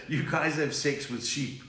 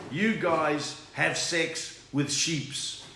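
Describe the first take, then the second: First: "sheep" said normally, no s; "You guys have sex with sheep" corrected; plain sheep. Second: "sheeps" said slowly with an added s; slow "You guys have sex with sheeps" with "sheeps"; wrong plural sheeps. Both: Retold or imitated. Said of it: "this Australian guy said".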